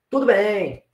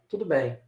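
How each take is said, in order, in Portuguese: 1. A entoação soa contente e tranquila. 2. A entoação soa infeliz e baixa.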